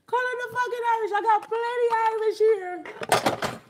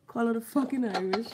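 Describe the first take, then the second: First: Much higher and louder, fast then stretched out; shrill excited yelling from the laugh; excited high shout. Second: Said in the usual way. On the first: Real, not acted. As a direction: yell it high, hyped up. Escalating repeat of his own line.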